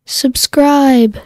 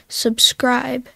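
First: Loud, clipped recording; said firmly into the mic. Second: Said in the usual way. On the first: Shown as a demonstration. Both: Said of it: "Hold down the button and say".

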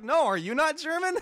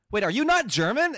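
First: Even higher, loud mimicked disbelief; astonished counter-question. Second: Loud, high-pitched incredulous question; retold astonishment. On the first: Other learner turning the question back, imitated high astonishment. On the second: Learner realizing the other person isn't German, loud astonished question. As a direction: act out sudden disbelief, voice shooting up. Retold mutual surprise at discovery.

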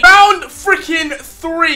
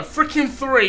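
First: Stretched out slowly. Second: Said in the usual way. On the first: Real, not acted. Announcing the round, slow and drawn out. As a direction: drag each word out. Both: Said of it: "That is a mouth twister".

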